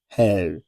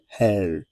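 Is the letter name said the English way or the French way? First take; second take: French; French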